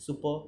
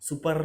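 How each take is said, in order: First: সুপার ending on an open vowel, no R; silent R. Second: সুপার with a clearly rolled final R; R sounded. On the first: Teacher models English speech for students, silent R. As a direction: drop the final R of সুপার. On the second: Teacher shows students the R to avoid, R sounded. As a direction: end সুপার on a hard, audible R. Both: Shown as a demonstration. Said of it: "আর এর উচ্চারণটা silent রাখি".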